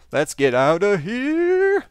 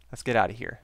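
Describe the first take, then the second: First: Louder, slow, stretched urgent cry; drawn-out urgent call. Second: Said in the usual way. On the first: Real, not acted. Player fleeing the burning fortress, stretched loud urgent call. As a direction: drag it out like a siren while fleeing.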